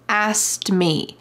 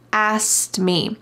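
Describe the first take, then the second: First: The K sound in asked is dropped. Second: The same.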